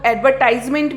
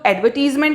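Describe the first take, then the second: First: It is said in a non-British way. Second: It is said in the British way. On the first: "कुछ लोग एडवर्टाइजमेंट भी बोलते हैं" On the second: "जो एडवर्टीजमेंट जो pronunciation है वो यूके का है"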